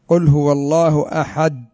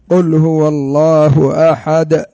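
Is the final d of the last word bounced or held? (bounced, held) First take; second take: held; bounced. First: The final d is held without a bounce. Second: The final d is released with a bounce. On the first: The speaker calls it wrong. "هكذا تمسك اللسان مع الحنك" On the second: The speaker calls it right. "لكن"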